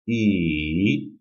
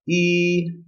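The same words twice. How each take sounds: First: The pitch dips down, then rises slightly. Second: The pitch stays high and level. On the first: "descending and then rising" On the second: "The first tone is high level pitch"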